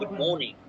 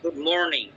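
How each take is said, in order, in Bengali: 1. এটি ব্রিটিশ ইংরেজি উচ্চারণে বলা হয়েছে। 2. এটি আমেরিকান ইংরেজি উচ্চারণে বলা হয়েছে। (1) "ব্রিটিশটা বলবে" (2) "আমেরিকানরা বলবে"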